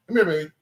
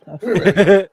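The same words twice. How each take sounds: First: Said in the usual way. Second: Loud, laughing call to the dog. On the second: Real, not acted. Owner calling her hiding dog, laughing and loud.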